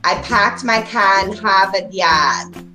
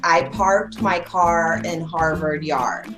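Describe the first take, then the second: First: It is said in a Boston accent. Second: It is said in a general American accent.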